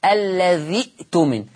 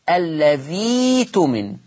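First: الذي اؤتمن with short i cut by a glottal stop; slow demo, still hamza kept in الذي اؤتمن; Hafs reading. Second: الذي تمن with long ii, no glottal stop; slow recitation, dhii drawn out in الذي تمن; hamza replaced by ya. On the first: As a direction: say "alladhi'-tumin" for الذي اؤتمن, hamza sounded. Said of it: "لو أنا نطقتها الحفص". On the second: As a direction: stretch "alladhii-tumin" slowly. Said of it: "الياء، فتقرأ". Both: Shown as a demonstration.

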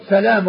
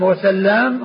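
First: سلام with a single l, "salam"; lightened lam. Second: وسلام with a double l, "wa-sallam"; doubled lam. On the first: Teacher contrasting two name forms, سلام as "salam". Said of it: "هو بالتثقيل إلا هؤلاء". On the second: Teacher contrasting two name forms, وسلام as "wa-sallam". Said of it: "هو بالتثقيل". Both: Shown as a demonstration.

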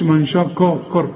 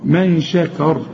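First: "من شكر" with dark, heavy vowels; "من شكر" said too full-mouthed; wrong heavy vowels. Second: "من شكر" with thin, light vowels; correct light vowels. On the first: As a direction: mistakenly thicken "شكر" toward "shokor". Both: Shown as a demonstration. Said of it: "ما تقولش من شكر".

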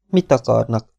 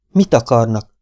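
First: Said in the usual way. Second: "Mit" pressed, louder the second time; insistent repeat. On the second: A narrator's reading. Mabel to the intruding cowboys, asking again louder. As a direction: demand it louder, no longer asking politely. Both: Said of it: "kérdezte újra Mabel".

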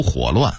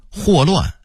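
First: 火乱 (huǒluàn) said for huòluàn; dipping tone on 火 in 火乱; Beijing-style 火乱 without a falling first syllable; Beijing dialect reading. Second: Said in the usual way. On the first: Shown as a demonstration. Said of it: "北京话读". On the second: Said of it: "北京话读火乱".

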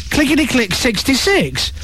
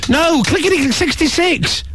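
First: Said in the usual way. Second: Sixty-six hit high and firm; emphatic correction. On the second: Shown as a demonstration.

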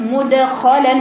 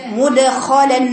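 Both takes have the same delivery.

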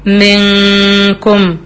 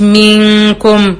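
First: منكم said very slowly, noon held as a nasal hum without rounding; correct ghunna. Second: منكم with the vowel rounded toward a waw; wrong rounding. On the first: Teacher showing students the right way, slow and nasal. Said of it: "أنا بقول منكم". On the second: Teacher imitating the wrong version for contrast, rounded. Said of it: "مش منكم". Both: Shown as a demonstration.

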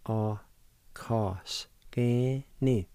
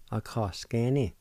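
First: "A ka s ke ni" said very slowly and evenly; slow demo. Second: Said in the usual way. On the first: Shown as a demonstration. Teacher to radio listeners, slow careful pronunciation. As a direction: give learners "A ka s ke ni" one slow sound at a time. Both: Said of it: "And it's pronounced like this".

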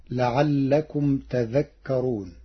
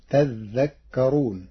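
First: Said in the usual way. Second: تذكرون with a doubled, held ذ; doubled dhal. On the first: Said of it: "قرأ ورش كلمة تذكرون بتشديد الذال". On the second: Shown as a demonstration. Teacher demonstrating Warsh reading, تذكرون with doubled ذ. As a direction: stretch the ذ in تذكرون, slow. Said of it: "بتشديد الذال فتصير لعلكم".

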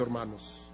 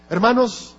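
First: "hermanos" dropped much softer and lower, almost breathed; hushed hermanos. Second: "Hermanos" called out higher and a bit louder, rising to grab attention; calling hermanos. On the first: Preacher tenderly addressing the congregation, hushed. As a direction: let "hermanos" fall away gently, near a hush. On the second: Preacher calling out to the congregation to wake them, raised. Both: Real, not acted.

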